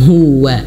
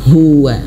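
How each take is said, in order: No difference in how they are said.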